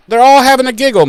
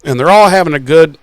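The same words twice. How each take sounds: First: High, fast, bouncy mocking of the gang's giggle; mock giggly. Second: Said in the usual way. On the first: Mocking friends giggling through a serious episode, high and fast. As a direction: chirp it up high and quick.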